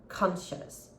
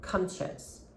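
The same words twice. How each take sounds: Both takes have the same delivery.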